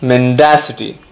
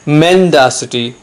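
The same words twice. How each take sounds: First: The stress is on the second syllable. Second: The stress is on the first syllable. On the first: The speaker calls it right. "remember the stress is on the second syllable" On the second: The speaker calls it wrong. "It's not mendacity"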